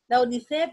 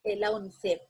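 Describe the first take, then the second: First: Said in the usual way. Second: "la unicef" said as one word, higher; "la unicef" lifted high and spoken whole; acronym said as a word. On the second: Shown as a demonstration. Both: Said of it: "O decimos".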